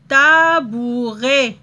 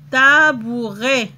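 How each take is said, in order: First: Tabouret drawn out slowly, each syllable clear; slow modeled word. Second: "Tabouret" said slowly again, syllable by syllable; slow repeat. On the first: Teacher to pupils: "tabouret" stretched out slowly. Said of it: "teacher models the word slowly". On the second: Teacher repeating for pupils: slow "Tabouret". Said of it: "teacher repeats the word slowly". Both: Shown as a demonstration.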